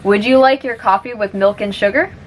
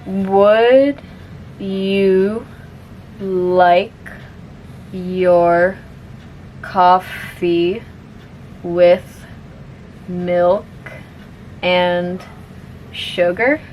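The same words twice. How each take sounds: First: The sentence is spoken at normal speed. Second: The sentence is spoken very slowly. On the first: "one more time at normal speed" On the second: "I'll say it slowly first"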